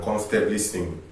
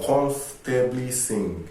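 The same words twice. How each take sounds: First: Said in the usual way. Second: Slow, deliberate stress on "comfortably sing"; emphasis on COMFORTABLY. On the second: Shown as a demonstration. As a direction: stretch out "comfortably" to make it stand out. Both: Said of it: "Emphasis on comfortably sing".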